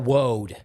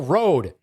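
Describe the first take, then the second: First: The word begins with a W sound. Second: The word begins with a clear R sound. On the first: The speaker calls it wrong. "not Woad. What are you, Elmer Fudd?" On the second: The speaker calls it right. "It's Gull Road"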